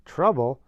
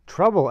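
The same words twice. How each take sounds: First: Indignant echo. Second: Loud, higher indignant cry; indignant outburst. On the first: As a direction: echo it again, still indignant. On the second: Sister echoes Miss Hubble's word, loud indignant outburst. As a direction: fling the word back in outrage. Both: A narrator's reading. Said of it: "echoed my sister".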